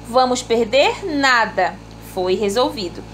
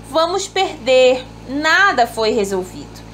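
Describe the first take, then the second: No difference in how they are said.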